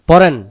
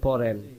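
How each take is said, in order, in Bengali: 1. এটি কড়া, শক্ত সুরে বলা। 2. এটি নরম, কোমল সুরে বলা। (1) "কথাটা শক্ত হইলো" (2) "নরম"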